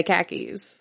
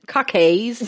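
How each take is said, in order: First: Said in the usual way. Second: "Khakis" as Australian "KAH-kayz"; mock Australian pronunciation. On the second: Mimicking the movie's love interest, "Khakis" as Australian "KAH-kayz". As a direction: say "Khakis" with broad ah and drawn -ays ending. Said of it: "he cannot be allowed to say khaki pants".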